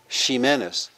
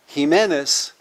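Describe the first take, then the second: First: It begins with a sh sound. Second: It begins with an h-like sound. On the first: This is the sixteenth-century pronunciation. "at that time was pronounced in Spanish Ximenez" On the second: This is the later pronunciation. "From she, it went to he"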